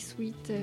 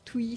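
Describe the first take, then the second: First: The word starts with a 'sw' sound and ends in t. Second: The word starts with a 'tw' sound and no final t. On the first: It is the standard adult form. The speaker calls it right. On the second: It is how small children say it. The speaker calls it wrong.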